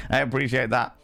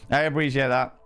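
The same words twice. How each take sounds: The two takes are said the same way.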